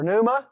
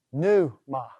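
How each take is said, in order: First: Said in the usual way. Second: "pneuma" split into two slow syllables, pneu-ma; slow, divided "pneuma". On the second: Shown as a demonstration. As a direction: sound out "pneuma" with a gap before ma. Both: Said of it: "You want to separate those things".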